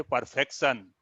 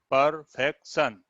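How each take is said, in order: First: Said in the usual way. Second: perfection slowly split into three beats; syllable by syllable. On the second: Shown as a demonstration. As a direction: pause inside perfection: per, fek, shan. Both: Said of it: "Third column is three syllabic".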